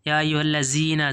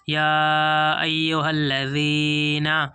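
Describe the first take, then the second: First: The consonant is said like a z sound. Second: The consonant is said like a dh sound. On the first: The speaker calls it wrong. "ज़ा की आवाज़ भी नहीं निकालेंगे दोस्तों" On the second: The speaker calls it right. "दाल पढ़ेंगे इसको।"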